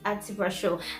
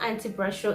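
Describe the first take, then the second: First: It is said with native Lithuanian sounds. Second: It sounds like the English words anti pressure. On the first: The speaker calls it right. "it's anti-pressure" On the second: The speaker calls it wrong. "It's not anti-pressure"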